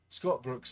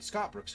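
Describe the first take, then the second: First: It is read in a put-on Scottish accent. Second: It is read in the speaker's normal accent. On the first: "today I'm really off on my Scottish accent" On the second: "we'll just read normal"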